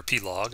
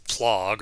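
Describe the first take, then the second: First: "Plog" in two syllables, pee-log; Plog with letter P. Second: "Plog" in a single syllable, P running into L; Plog as one syllable. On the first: Lecturer unsure of the library's name, "Plog" read as pee-log. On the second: Lecturer offers a library name's first reading, "Plog" as one word. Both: Shown as a demonstration. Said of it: "I'm not sure how you say it".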